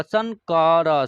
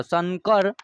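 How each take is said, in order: First: शंकर slow with nasal n; slow demo word. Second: Said in the usual way. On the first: Shown as a demonstration. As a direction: stress the half n in शंकर. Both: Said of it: "न का आधा न का उच्चारण होगा".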